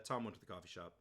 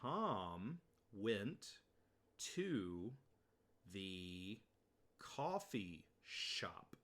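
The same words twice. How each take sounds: First: It is said at natural speed. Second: It is said very slowly.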